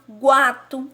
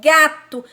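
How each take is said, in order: First: A w sound follows the g. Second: The g goes straight into a. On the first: The speaker calls it wrong. "Eu não falo guato" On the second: The speaker calls it right. "eu falo gato"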